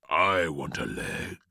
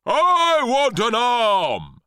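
First: Low-pitched monster voice, no shout; greedy claim in a lowered put-on voice; exclaiming cauliflower. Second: High, loud, stretched-out roar; shouting. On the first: Cauliflower claims its share of the boy, low exclamation. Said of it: "exclaimed the cauliflower". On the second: Cabbage pounces on the boy, shouting. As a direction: bellow greedily, dragging out the words. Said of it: "shouted the cabbage". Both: A narrator's reading.

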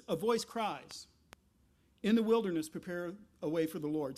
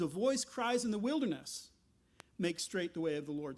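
First: "A voice cries," then a pause, then "In the wilderness, prepare a way" as one phrase; phrasing with pause after cries. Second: "A voice cries in the wilderness" run together, then a pause before "Make straight"; phrasing with pause after wilderness. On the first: Pastor showing the Hebrew reading, pausing after "cries". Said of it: "the way I just read it". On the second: Pastor showing the New Testament reading, pausing after "wilderness". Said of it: "what it says is". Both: Shown as a demonstration.

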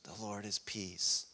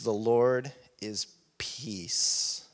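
First: Hushed repeat. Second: Slow and deliberate. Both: Shown as a demonstration.

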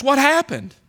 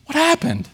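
First: Higher, pleading question; a hint of a bewildered lament; bewildered cry. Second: Higher again, a thin plaintive repeat; mild anguished echo. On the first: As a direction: ask as if lost. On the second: Retold or imitated. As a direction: let the question break a little. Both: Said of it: "it was almost like this".

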